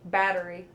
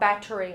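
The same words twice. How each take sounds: First: The middle consonant sounds like a D. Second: The middle consonant sounds like a T. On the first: "I say with a D" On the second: "Not battery"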